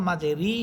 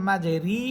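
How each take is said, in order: Both takes have the same delivery.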